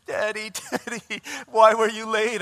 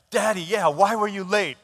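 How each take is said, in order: First: High-pitched imitation of a bawling girl; mock tearful reproach, building louder; crying child. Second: Louder, higher imitation of an indignant small boy; mock cross-examination by a child; grilling. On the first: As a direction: wail it like an upset daughter. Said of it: "She starts crying, crying". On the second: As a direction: demand an answer from dad. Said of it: "state prosecutor is, like, grilling me".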